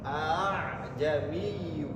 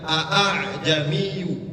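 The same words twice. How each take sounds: First: The opening vowel is held long, for two beats. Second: The opening vowel is short, with separate glottal stops. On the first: The speaker calls it right. "cara bacanya adalah panjang dua harkat" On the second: The speaker calls it wrong. "kita bacanya enggak a'jamiyu"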